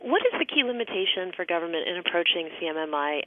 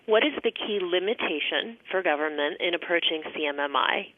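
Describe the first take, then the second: First: It is asked at a normal speed. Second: It is asked more slowly.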